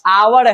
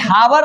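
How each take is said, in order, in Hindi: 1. शब्द स्वर से शुरू होता है, h नहीं। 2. शब्द h ध्वनि से शुरू होता है। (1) "एच छोड़ के बोल रहे हैं आवर" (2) "ये हावर नहीं है"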